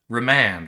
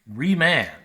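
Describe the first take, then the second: First: The first syllable is unstressed. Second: The first syllable is stressed. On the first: The speaker calls it right. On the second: The speaker calls it wrong.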